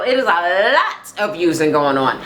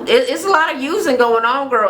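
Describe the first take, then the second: First: "lot" stretched on a long held L; stress on LOT. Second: High, lively emphasis on "a lot of using"; emphatic agreement. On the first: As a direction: lean hard on "lot", drawing out its first sound. Repeats it with drawn-out lot. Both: Real, not acted.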